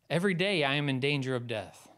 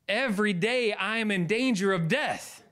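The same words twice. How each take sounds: First: It is read plainly, without exclamation. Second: It is read loudly, as an exclamation.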